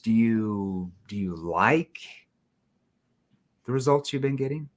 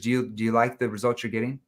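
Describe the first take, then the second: First: There is a pause before 'the results'. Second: It is said straight through without a pause.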